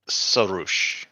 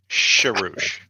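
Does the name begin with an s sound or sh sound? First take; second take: s sound; sh sound. First: The name begins with an s sound. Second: The name begins with a sh sound. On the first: The speaker calls it right. "that's the way it's pronounced" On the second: The speaker calls it wrong. "mispronouncing one of our beloved channel members' names"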